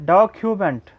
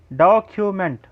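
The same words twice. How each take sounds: The two takes are said the same way.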